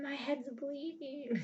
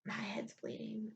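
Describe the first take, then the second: First: High, slow stretched wail; hammed-up fake panic; high mock whine. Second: Soft, slow whispered mockery of his panic; hushed mimicking whine; mocking whisper. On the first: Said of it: "and he freaks". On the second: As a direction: whisper it like a mock victim. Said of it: "And he freaked out".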